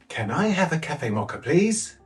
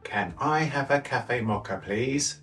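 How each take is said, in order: First: The voice is lively with expressive pitch movement. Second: The voice is flat with little pitch movement. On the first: "and then with it" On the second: "first without any expressive intonation"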